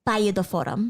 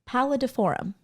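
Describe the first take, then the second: First: The double L is said like a Spanish LL. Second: The double L is said like an English L.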